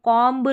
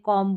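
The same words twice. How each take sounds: First: The final b sound is pronounced. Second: The final b sound is silent. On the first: The speaker calls it wrong. "नहीं बोलते" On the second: The speaker calls it right. "बोलते हैं, M तक उच्चारण करना"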